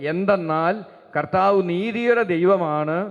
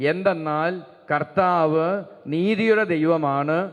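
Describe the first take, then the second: Both takes have the same delivery.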